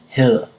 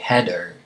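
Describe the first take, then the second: First: The D is soft, the tongue barely touching. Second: The D is a hard stop sound. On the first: The speaker calls it right. "See, it doesn't quite touch" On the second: The speaker calls it wrong. "It's not a hard D, so you wouldn't say header"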